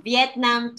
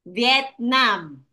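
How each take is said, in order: First: Said in the usual way. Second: "Vietnam" in two distinct beats; syllable by syllable. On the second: Shown as a demonstration. Teacher showing pupil two syllables, "Vietnam" syllable by syllable. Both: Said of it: "two syllables".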